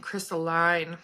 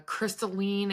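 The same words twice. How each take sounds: First: "crystalline" ending like "line"; second pronunciation variant. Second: "crystalline" ending in -een; first pronunciation variant. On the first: Showing viewers the other way people differ, "crystalline" as CRYS-tuh-line. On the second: Showing viewers one way people differ, "crystalline" as CRYS-tuh-leen. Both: Shown as a demonstration. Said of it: "everybody pronounces things different".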